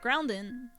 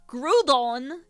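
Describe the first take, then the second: First: An n sound comes before the d. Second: No n sound comes before the d. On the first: The speaker calls it wrong. "I say Groundon wrong" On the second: The speaker calls it right. "it's technically Groudon"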